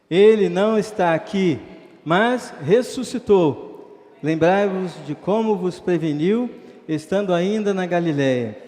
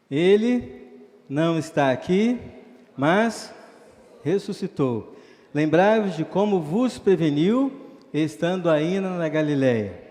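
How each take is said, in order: First: It is read loudly with more force. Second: It is read with normal, softer force.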